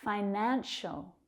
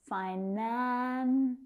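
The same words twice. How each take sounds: First: Said in the usual way. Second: "Financial" as fi-NAAAN... shul; drawn-out syllables. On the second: Shown as a demonstration. Teacher breaking down a word, "Financial" slowly stretched on NAN. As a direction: hold the middle of "Financial", then pause.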